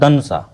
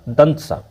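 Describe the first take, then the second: First: It is pronounced as dhan sa. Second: It is pronounced as dant sa. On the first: The speaker calls it wrong. "कुछ धन सा बोलता है" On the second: The speaker calls it right. "लेकिन इसका सही उच्चारण हो गया दंत सा"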